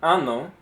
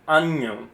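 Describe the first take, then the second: First: Anno with a simple n, AH-no; plain single N. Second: Año with a ny sound, AHN-yo. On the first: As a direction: say anno with no ny sound, just one n. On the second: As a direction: say año clearly with the squiggle's ny. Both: Shown as a demonstration. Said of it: "If it's just one N".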